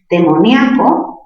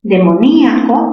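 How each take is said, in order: First: Demoníaco with nia as one stressed syllable; diphthong ia. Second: Demoníaco with stressed í split from the a. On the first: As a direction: say Demoníaco as de-mo-NYA-co. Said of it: "palabra grave". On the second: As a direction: break Demoníaco as de-mo-NÍ-a-co. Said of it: "tildación disolvente". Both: Shown as a demonstration.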